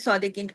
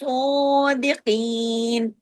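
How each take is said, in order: First: It is rushed, with a short vowel and single s. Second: It has a doubled s and a long vowel. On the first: The speaker calls it wrong. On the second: The speaker calls it right.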